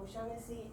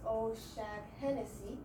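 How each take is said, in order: First: Fewer syllables with no extra vowel inserted. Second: Five syllables with an extra vowel inserted. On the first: The speaker calls it right. "O'Shaughnessy is correct" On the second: The speaker calls it wrong. "he used five syllables and he in, in put in the O sound in between"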